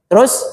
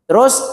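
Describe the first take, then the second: No difference in how they are said.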